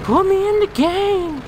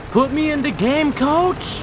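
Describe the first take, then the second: First: High, loud, slow drawn-out cry; drawn-out shout. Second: High, loud eager call; excited plea. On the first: Pretend. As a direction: stretch it out like a chant. Repeated louder, slower. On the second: Real, not acted. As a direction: plead to get in the game. Begging to play, gaming.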